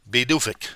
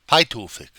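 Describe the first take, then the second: First: It starts with b and has a soft d. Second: It is read out just as it is spelled. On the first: The speaker calls it right. "But it is pronounced Bidufik" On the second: The speaker calls it wrong. "I don't even know the pronunciation of this thing"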